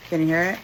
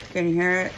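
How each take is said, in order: Both takes have the same delivery.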